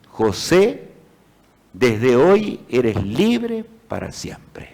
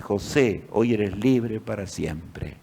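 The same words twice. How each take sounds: First: Slow, solemn proclamation of freedom; solemn reading. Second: Softer, slow, halting read; spelling it out. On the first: The master's written decree read to José, slow and solemn. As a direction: read the words out slowly like a decree. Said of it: "Y el documento decía". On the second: José slowly spells out his freedom letter, quiet and halting. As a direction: sound out each word softly in disbelief. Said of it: "José deletreaba". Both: A narrator's reading.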